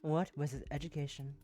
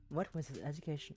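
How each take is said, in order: First: The question is spoken at a slower pace. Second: The question is spoken at a fast pace.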